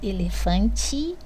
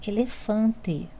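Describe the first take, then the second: First: It is said with a regional Minas Gerais pronunciation. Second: It is said carefully, following the written spelling. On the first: This is how it is said in everyday speech. "Eu falo elefante porque sou mineira" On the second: This is how it is written. "mas escrevo elefante"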